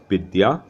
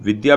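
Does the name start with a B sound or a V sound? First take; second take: B sound; V sound. First: The name starts with a B sound. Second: The name starts with a V sound. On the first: "V becomes B" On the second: "V becomes B"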